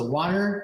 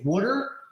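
First: Water is said with a standard American accent. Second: Water is said with a South Jersey accent. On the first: "as opposed to water" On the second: "when I say water"

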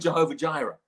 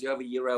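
First: The second word begins with a J sound. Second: The second word begins with a Y sound. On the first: "we often say" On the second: "if you want to pronounce it all the correct ways"

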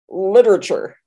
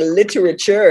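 First: Some syllables are run together and dropped. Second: Every syllable is clearly pronounced. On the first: It is the usual casual way of talking. "instead of" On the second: It is a fancy, carefully enunciated way of talking. "that's all the syllables in the word"

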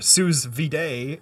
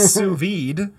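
First: It is said following English spelling. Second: It is said in a French style.

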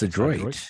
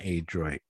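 First: The first vowel is a short, soft sound. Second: The first vowel is a long A sound. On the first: The speaker calls it right. "it's a short vowel sound" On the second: The speaker calls it wrong. "It's not Adroit"

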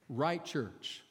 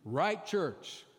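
First: The phrase is said in a calm, plain voice. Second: The phrase is said loudly with strong energy.

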